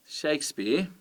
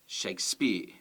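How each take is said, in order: First: "Shakespeare" with SHAKE emphasized and high; stress on first syllable. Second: "Shakespeare" wrongly stressed as shake-SPEARE; stress on second syllable. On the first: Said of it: "you can hear that it's the first syllable". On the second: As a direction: push the stress onto the end of "Shakespeare". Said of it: "with the stress on the second one". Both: Shown as a demonstration.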